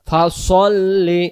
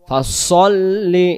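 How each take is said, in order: Both takes have the same delivery.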